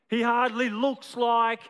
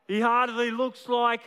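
The two takes are said the same way.

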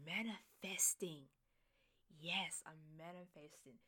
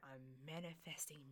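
First: Manifesting whisper. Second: Said in the usual way. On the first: Shown as a demonstration. Host whispering her manifesting to listeners. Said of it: "repeats manifesting as a whisper". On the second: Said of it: "manifesting (whispered after)".

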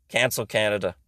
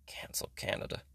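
First: Said in the usual way. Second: Breathy voiceless whisper of the slogan. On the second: Acted. To the Cancel Canada crowd, an eerie whisper. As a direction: hiss it like a secret.

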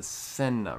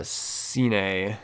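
First: "Seine" said SEN-nuh; French-style pronunciation. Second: "Seine" misread as SEE-nay; butchered pronunciation. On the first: Shown as a demonstration. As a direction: say "Seine" with short e and a light final uh. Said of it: "That's how they pronounce it in French". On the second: Real, not acted. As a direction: say "Seine" wrongly in two syllables, SEE-nay. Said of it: "I, I may have butchered".

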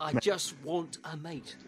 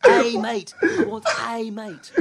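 First: Slow, softer Donna Noble voice; Donna impression. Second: Higher, louder, slow Donna voice, pushing the word mate; Donna impression, laughing. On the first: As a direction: drawl it out like Donna. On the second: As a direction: redo Donna through laughter, stressing mate. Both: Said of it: "that was a really good impression".

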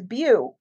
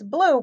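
First: "beau" said without the l, rounded like bow; imitating the daughter's "beau" for blue; speech-delayed blue. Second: Said in the usual way. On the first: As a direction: drop the l so "beau" sounds like bow. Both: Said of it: "but she says".

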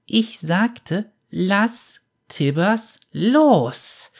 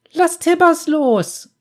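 First: Put-on high, slow, menacing child's voice; wrathful warning. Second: High, loud, slow cry; girl's shriek. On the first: Girl warns the bounty hunter in cold fury, slow and menacing. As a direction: spell out each word as a threat. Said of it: "Die Worte grollten voller Zorn". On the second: Girl cries at the bounty hunter to release her bear, high loud shriek. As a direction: shriek it out like a frightened child. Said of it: "schrie das Mädchen auf". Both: A narrator's reading.

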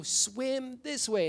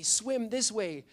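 First: Much higher, very slow insistent call; repeated call. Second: Slow, higher call across the water. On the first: Pastor repeats the call to a student who didn't hear, higher and slower. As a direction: say it again, drawn out, so he finally hears. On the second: Pastor calls a swimming student toward the shore, slow and higher. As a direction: stretch it out to reach someone far away. Calling to boy in riptide. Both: Retold or imitated.

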